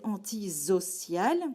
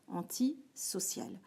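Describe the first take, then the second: First: The middle consonant is a buzzing z sound. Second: The middle consonant is a hissing s sound. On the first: This is what the spelling rule would predict. The speaker calls it wrong. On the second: This is how the word is really said. The speaker calls it right.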